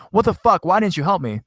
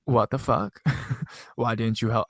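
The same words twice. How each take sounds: First: High-pitched, indignant mock yell. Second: Badly faked British accent, breaking into a laugh; failed British accent. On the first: Friend demanding why sister didn't help, high mock yell. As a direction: pitch it way up like an upset outburst. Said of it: "crying her eyes out and yelling at my sister". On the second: Friend asking sister for help, half-hearted British accent. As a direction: attempt British and lose it laughing. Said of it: "don't know how to do a fucking British accent".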